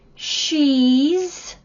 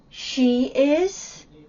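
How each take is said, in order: First: It is said as one contracted syllable. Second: It is said as two separate syllables.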